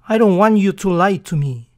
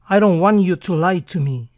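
Both takes have the same delivery.

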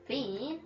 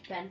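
First: The name is said in an Australian accent. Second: The name is said in a plain accent. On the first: "I like calling him Bean in an Australian accent" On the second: "His name's Ben"

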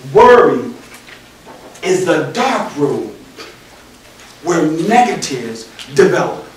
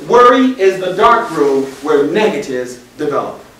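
First: The sentence is said at a slow pace. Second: The sentence is said at a normal pace. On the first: "I'm going to say that slowly" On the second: "It says"

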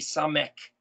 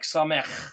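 First: The word ends in a hard K sound. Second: The word ends in a soft throaty sound. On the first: The speaker calls it wrong. "we might say S-A-M-E-K" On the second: The speaker calls it right. "but it's more like samech"

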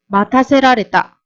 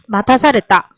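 First: The verb has the longer, full form. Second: The verb has the shorter, contracted form. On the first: "맡아세라레타 요거를 어떻게 축약형으로 바꿔보자" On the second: "축약형으로 바꿔보자"

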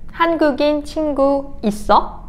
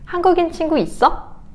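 First: It is said at a normal pace. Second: It is said at a quick pace.

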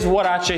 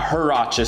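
First: Huarache is said with a Spanish-style pronunciation. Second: Huarache is said with an English-style pronunciation. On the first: The speaker calls it right. "It is Huarache sandal" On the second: The speaker calls it wrong. "it's not Huarache sandal"

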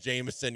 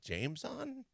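First: The name is blended into one smooth word. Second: The name is split into two separate parts. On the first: The speaker calls it wrong. "you want to call him Jameson" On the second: The speaker calls it right. "it's really James on"

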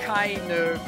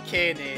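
First: The name is pronounced the German way. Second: The name is pronounced the Japanese way. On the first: "so I'm pronouncing it the German way" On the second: "You would have to say Kene in Japanese"

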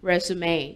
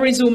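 First: It is said as three syllables, rez-oo-may. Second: It is said as two syllables, re-zoom. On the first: A summary of your background sent when applying for a job. "มันอ่านว่า" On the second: To start again. "แต่เป็น verb อ่านว่า"

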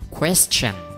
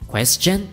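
First: The stress is on the first syllable. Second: The stress is on the second syllable. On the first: "nói nhấn nó lên một xíu ở cái âm đầu, kiểu là thế này" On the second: "người ta nói nhấn lên ở cái âm sau chứ không phải là âm đầu, kiểu là thế này"

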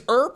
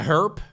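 First: The word begins without an h sound. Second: The word begins with an audible h sound. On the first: This is the American pronunciation. "it's herp in the States ... You just pretend there's no H?" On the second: This is the British pronunciation. "herp in the UK"

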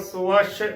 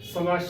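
First: The word is said fully, with the added vowel. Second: The word is said clipped, without the added vowel. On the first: The speaker calls it right. "ਇਸ ਨੂੰ ਭਰ ਕੇ ਬੋਲਣਾ ਹੈ" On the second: The speaker calls it wrong. "ਸਵਸ਼ ਨਹੀਂ ਬੋਲਣਾ"

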